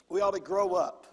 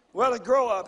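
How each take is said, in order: First: Said in the usual way. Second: "grow" hit louder in a rising repeat; emphatic repeat. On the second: Shown as a demonstration. Pastor repeating the point to the congregation, stressing "grow". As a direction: drive home the word "grow". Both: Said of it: "repeated louder".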